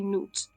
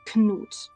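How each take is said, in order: First: The initial K sound is left out. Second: The initial K sound is pronounced. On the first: "Finns are still not pronouncing it" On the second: "you have to pronounce the K. It's Knut"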